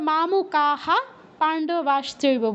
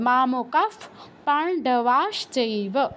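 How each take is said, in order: First: The first word ends with an h sound. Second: The first word ends with an f sound. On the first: This is ordinary reading without chanting. "Normally পড়লে কিন্তু আমরা মামকাহা পাণ্ডবাশ্চৈব বলবো" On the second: This is chanted recitation that keeps the meter. "যখন chanting করব তখন এরকম হবে"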